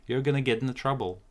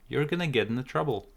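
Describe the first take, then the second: The two takes are said the same way.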